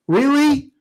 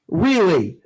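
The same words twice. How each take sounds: First: A sharp, much higher Really; can't believe what he just read; incredulous. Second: Said in the usual way. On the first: Real, not acted. Disbelief at a fan's dumb idea.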